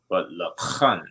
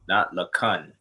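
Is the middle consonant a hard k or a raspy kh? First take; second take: raspy kh; hard k. First: The middle consonant is a raspy throat kh. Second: The middle consonant is a hard plain k. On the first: The speaker calls it right. "but the kha" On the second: The speaker calls it wrong. "not the ka"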